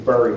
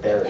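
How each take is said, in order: First: The first vowel sounds like the vowel in burr. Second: The first vowel sounds like the vowel in bet. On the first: The speaker calls it wrong. "I have a Philadelphia accent. I say burry" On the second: The speaker calls it right. "instead of berry"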